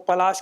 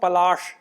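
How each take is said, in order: First: The final sibilant is a palatal sh sound. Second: The final sibilant is a retroflex sh sound. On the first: The speaker calls it right. "आप पलाश बोलना चाहते हैं" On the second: The speaker calls it wrong. "ऐसा नहीं बोलना है"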